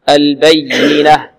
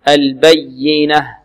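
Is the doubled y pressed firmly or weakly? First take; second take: weakly; firmly. First: The doubled y is pressed weakly. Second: The doubled y is pressed firmly. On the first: The speaker calls it wrong. "لا نقول البينة" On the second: The speaker calls it right. "والياء المشددة لابد من نبرها"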